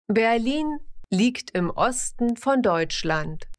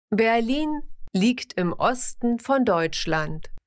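Both takes have the same delivery.

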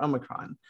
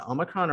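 First: "Omicron" with a long OH first; second pronunciation option. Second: "Omicron" with a short AH first; first pronunciation option. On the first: Host weighing the debated versions, long-O "Omicron". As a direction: say "Omicron" as OH-mi-cron. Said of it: "I've always said Omicron". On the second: Host weighing the debated versions, short-AH "Omicron". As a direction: say "Omicron" as AH-mi-cron. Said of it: "there's been some discussion about". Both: Shown as a demonstration.

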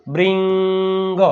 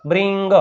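First: બ્રિંગ with a long held ING; drawn-out blend. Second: Said in the usual way. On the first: Shown as a demonstration. Teacher joining B and R for pupils, બ્રિંગ stretched long. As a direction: slowly stretch બ્રિંગ before the final G. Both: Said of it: "બી આર ભેગું".

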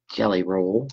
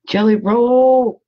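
First: Said in the usual way. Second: High, loud, drawn-out cheer; playful call-out. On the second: Pretend. Crafter hailing her beloved jelly roll, playful loud call-out. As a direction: sing out the name with relish, stretching it long.

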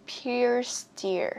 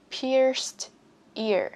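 First: "Pierced ear" joined with no gap; linked sounds. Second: Said in the usual way. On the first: Shown as a demonstration. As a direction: link the last sound of "Pierced" onto "ear". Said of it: "Nối âm ở đây nhá". ("Pierced ear" nối âm cuối sang "ear") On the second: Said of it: "có thể nối âm ở đây".

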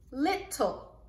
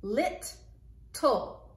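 First: Said in the usual way. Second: Lit, tul said as separate beats; split syllables. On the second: Shown as a demonstration. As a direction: sound out lit then tul, slowly apart. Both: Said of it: "read the two syllables".

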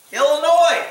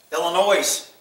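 First: Said in the usual way. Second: "Illinois" ending in a buzzed "noise"; sounded final S. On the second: Shown as a demonstration. Repeats it sounding the s.

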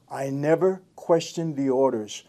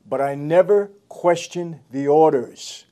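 First: Said in the usual way. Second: Lightly voiced stern mobster, slow and weighty; slow stern mob boss line. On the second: Ex-mobster quoting a movie boss, slow and stern. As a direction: lean on never, slow and grave. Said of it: "He said".

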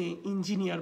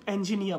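First: "ইঞ্জিনিয়ার" as in-ji-ni-ar; in- start and final r in "ইঞ্জিনিয়ার"; wrong pronunciation. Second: "অ্যাঞ্জেনিয়া" as en-ji-NI-a; correct pronunciation. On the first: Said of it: "ইঞ্জিনিয়ার বলবেন না". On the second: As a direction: open first vowel in "অ্যাঞ্জেনিয়া", no r. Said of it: "তারা অ্যাঞ্জেনিয়া বলবেন". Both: Shown as a demonstration.

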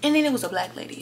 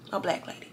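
First: Said in the usual way. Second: Whispered aside. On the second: Real, not acted. Repeated in a hushed aside.

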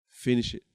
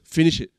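First: Softer, lower quoted command; hushed instruction. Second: Said in the usual way. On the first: Retold or imitated. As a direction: repeat the instruction quietly and low. God's instruction repeated, hushed after pause.

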